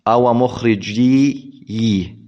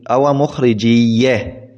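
First: Strained attempt at "مخرجي" with both yas vowelless; two separate yas. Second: "مخرجية" ending in a geminated ya with fatha; merged doubled ya. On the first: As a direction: draw out "مخرجي" slowly with two still ya sounds, unmerged. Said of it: "طبعًا لا أستطيع أن ألفظها". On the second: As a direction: say "مخرجية" with one doubled y opening into a short a. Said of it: "ثم فتحت الياء الثانية للتخفيف". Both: Shown as a demonstration.

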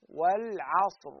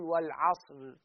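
First: والعصر said very slowly with a light, thin final ra; correct recitation. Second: والعصر said with a heavy, full-mouthed final ra; wrong recitation. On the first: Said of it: "فنقول والعصر". (والعصر بترقيق الراء وببطء) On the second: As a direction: deliberately make the ra in والعصر heavy to show the mistake. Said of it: "والعصر غلط". (والعصر بتفخيم الراء خطأ) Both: Shown as a demonstration.

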